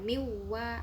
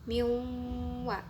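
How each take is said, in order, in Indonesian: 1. Bunyinya langsung masuk ke w tanpa dengung sengau. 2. Dengung sengau yang panjang ditahan sebelum w. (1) "bukan miwa ... hanya memasukkan tanpa mendengungkan" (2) "harus ada dengungnya. Makanya bacanya itu berhenti dulu dua ketukan"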